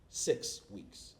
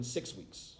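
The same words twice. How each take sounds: First: Six weeks said low and soft, spaced out; six, pause, weeks, dropped for effect; emphatic repeat of six weeks. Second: Said in the usual way. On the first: Real, not acted. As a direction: let six weeks land quietly.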